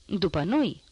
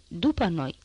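First: "După noi?" with a rising, incredulous end; a mild read-aloud howl of disbelief; outraged question. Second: "după noi" said as a firm falling statement; a flat-ending order that "după noi" is final; firm command. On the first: Robbers protest being told to go last, rising disbelief. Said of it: "urlară tâlharii". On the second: Robber grabs Thénardier's collar, firm falling order. Prentanie holds Thénardier back. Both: A narrator's reading.

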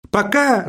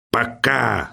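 First: High-pitched, offhand sign-off; brisk bye at a higher pitch; clicked-off goodbye. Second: Understated hateful mimicry, kept down; with hatred. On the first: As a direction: toss off a high goodbye before hanging up. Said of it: "цокнула трубка и стихла". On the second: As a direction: repeat it with quiet contempt. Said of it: "с ненавистью повторил Персиков". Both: A narrator's reading.

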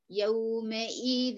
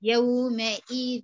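First: يومئذ said very slowly with the nun merged into the ya and ghunna from the nose; slow correct recitation of يومئذ. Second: يومئذ said very slowly with the nun turned into a plain ya, no ghunna; slow faulty reading of يومئذ; wrong ya sound. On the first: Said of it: "لكن الصح". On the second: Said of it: "آه، كده ياء". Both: Shown as a demonstration.

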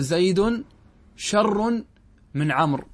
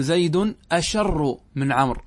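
First: شر pitched high, starting straight on sh; accepted form without hamza. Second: Slow, deliberate أشر with an opening short a; rejected form with hamza. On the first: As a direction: lift شر between two pauses. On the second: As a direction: sound the initial hamza in أشر. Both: Shown as a demonstration. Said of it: "كما أنك لا تقول".

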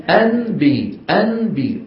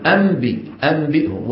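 First: أنبي with a plain n, no m; original n. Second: أنبي said as أمبي, n turned to m. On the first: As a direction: say أنبي with a clear n. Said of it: "أصلها إيش؟". (انطق أنبي بنون واضحة) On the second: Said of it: "كيف كانت العرب تنطقها؟". (انطق أنبي بالميم: أمبي) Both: Shown as a demonstration.

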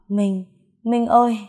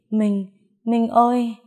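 First: Delirious calling out. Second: Delirious calling out, drawn out. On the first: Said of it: "em không ngừng gọi tên Minh". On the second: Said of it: "Tiếng em gọi tên người ấy triền miên". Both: A narrator's reading.

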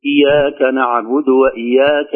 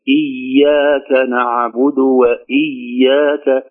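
First: Slow إياك with a single, slack y; ya without shadda. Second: Very slow إياك, the y lengthened without tension; soft held doubled ya. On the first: Teacher showing what to avoid, إياك said with an undoubled y. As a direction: skip the doubling in إياك. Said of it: "ولا نقول". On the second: Teacher modelling, إياك with shadda held but relaxed. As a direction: linger softly on the double y of إياك. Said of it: "شدة بدون شدة". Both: Shown as a demonstration.

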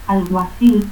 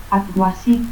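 First: Said in the usual way. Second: Alguacil as "atguasit"; S for C, stops for both Ls in Alguacil; seseo. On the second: Shown as a demonstration.

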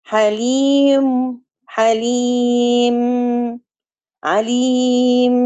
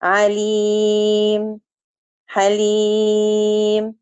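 First: حليم and عليم drawn out slowly with a held nasal ميم; wrong way demo. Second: عليم and حليم very slow, ميم silent and stopped with no nasal hum; correct stop demo. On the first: Teacher demonstrating the wrong nasal stop to students. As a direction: show the mistake: hum on the ميم at the stop. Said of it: "خطأ". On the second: Teacher showing students the correct stop, very slow. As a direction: close the lips on the ميم and stop clean. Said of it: "بأسكن الميم وأقف". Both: Shown as a demonstration.

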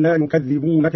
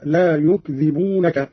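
First: Said in the usual way. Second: يكذبونك said slowly as "yukdhibunaka"; closed k and single dh in يكذبونك; lightened dhal. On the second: Shown as a demonstration. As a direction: drop the doubling in يكذبونك, yuk-dhi-bu-na-ka. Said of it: "قرأ قالون بالتخفيف هكذا".

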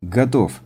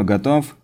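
First: «Готов» коротко, с падением тона; ответь «Готов» твёрдо, опустив тон; решительно. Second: «готов» с подъёмом тона в конце; спроси «готов», подняв голос к концу; вопрос. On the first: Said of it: "решительно брякнул Денис". (решительный ответ с нисходящей интонацией) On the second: Такер спрашивает перед началом работы. (вопросительное «готов», восходящая интонация) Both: A narrator's reading.

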